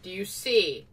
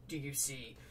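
First: Louder, insistent question; emphatic. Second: Softer, lower teasing question; quiet aside. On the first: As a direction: press the point hard. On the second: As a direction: drop it to a sly aside. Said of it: "Missus Leeds". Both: Acted.

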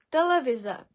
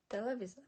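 First: Телевізор with soft і, said loudly as the mistake; the common wrong Телевізор, loud; wrong soft version. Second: Телевізор with hard и after т, quietly; the right Телевізор, plain and soft; correct hard version. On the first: Teacher showing the common wrong pronunciation, loud. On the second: Teacher giving the correct pronunciation quietly. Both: Shown as a demonstration. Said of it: "Не телевізор, а телевізор".

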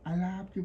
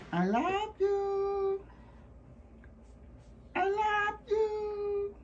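First: Said in the usual way. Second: High sing-song coo. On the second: Real, not acted. High slow coo to puppy.

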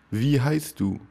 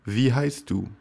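Both takes have the same delivery.

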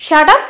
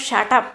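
First: Loud roar of shut up. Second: Said in the usual way. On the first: Retold or imitated. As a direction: roar it at her. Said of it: "Ajit roars out". (ഉറക്കെ അലറുന്നു) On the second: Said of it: "എന്ന് പറയുന്നു നുമിത".

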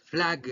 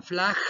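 First: "flag" closed on a hard G; guttural G. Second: "flag" ending in a breath, like FLAH; mispronounced G. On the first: Teacher corrects the students' ending, "flag" with guttural G. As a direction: finish "flag" with a voiced G from the throat. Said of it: "Esta G es gutural". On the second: Teacher shows what not to say, "flag" without the hard G. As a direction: let the G of "flag" slip into a Spanish J. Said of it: "No digan flag". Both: Shown as a demonstration.

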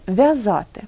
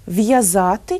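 First: В'язати with a softened V, no glide; half-soft consonant. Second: В'язати with a hard V, then a y-glide; hard consonant. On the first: Teacher offers the wrong option, soft V in в'язати. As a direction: say в'язати as vya-zaty, V palatalised. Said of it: "якщо вимовляти ці звуки напівм'яко". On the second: Teacher offers listeners the correct form, hard V in В'язати. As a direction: say В'язати as v-ya-zaty. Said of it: "як же ми вимовляємо ці слова". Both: Shown as a demonstration.

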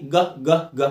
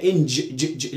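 First: Short repeated "ج" as a hard g, as in go; hard g sound. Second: "ج" as a soft j, as in jam, repeated alone; soft j sound. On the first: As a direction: say "ج" as a separate hard "guh" each time. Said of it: "الجي معروف صوتها ايه". ("ج" جيم مصرية منفصلة) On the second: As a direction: say "ان" then short separate "juh" sounds for "ج". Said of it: "ليه قلتها ج". ("ج" معطّشة منفصلة) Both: Shown as a demonstration.

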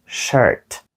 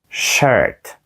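Both takes have the same delivery.

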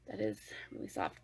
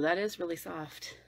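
First: Softer repeat. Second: Soft mock reviewer. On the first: Retold or imitated. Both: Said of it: "they're like".

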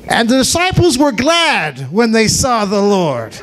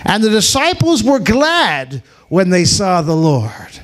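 First: Joyful shout. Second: Said in the usual way. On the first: Shown as a demonstration. Narrator repeats it as a joyful shout to the church. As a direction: proclaim it with joy. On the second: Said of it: "repeated with a shout".

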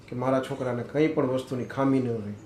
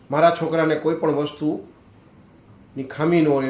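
First: Said in the usual way. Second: મારા છોકરાને કોઈ પણ વસ્તુની ખામી ન રહે louder, slower, each word leaned on, starting hard on મારા; slow emphatic repeat. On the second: Shown as a demonstration. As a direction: drag out the repeat and hammer મારા. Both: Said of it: "repeated line".

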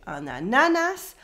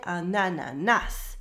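First: "ananas" with the middle NA stressed, pitch swinging up; stress on middle syllable. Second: "ananas" with the final NAS stressed; French-style "ananas", weight landing on the closing NAS; stress on last syllable. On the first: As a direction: wrongly lean on the second syllable of "ananas". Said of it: "we don't say an ananas". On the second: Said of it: "We stress the last syllable". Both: Shown as a demonstration.

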